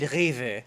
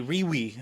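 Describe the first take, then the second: First: "Rewe" as REH-veh, with a German R and v; German pronunciation. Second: "Rewe" as REE-wee, read by English spelling; English guess. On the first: Vlogger naming a store that gets a break, German pronunciation. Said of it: "if you get Rewe". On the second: Vlogger unsure how English speakers would say it, English guess. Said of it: "in English, I don't know how". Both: Shown as a demonstration.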